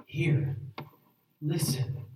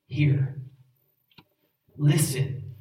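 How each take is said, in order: First: 「Hear.」「Listen.」を静かに、余韻をもって繰り返す; 聖句の後にそっと噛みしめるように; quiet reflective echo. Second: 「Hear.」「Listen.」をそれぞれ間を置いて力強く言い切る; 一語ずつ区切り、命令として強く; firm emphatic commands. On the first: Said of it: "You shall write them on the doorposts". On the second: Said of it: "What's the command that Jesus is assuming?". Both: Shown as a demonstration.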